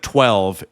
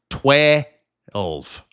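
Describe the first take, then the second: First: It is said in a standard one-syllable way. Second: It is said in a Southern drawl, two syllables.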